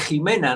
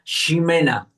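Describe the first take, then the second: First: The name begins with a throaty h sound. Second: The name begins with a sh sound. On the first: Others are saying the name wrongly. The speaker calls it wrong. "y me empiezan a decir Jimena" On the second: This is the person's real name. The speaker calls it right. "yo me llamo, eh, vamos a decir algo, Ximena"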